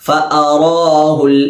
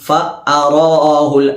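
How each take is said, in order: No difference in how they are said.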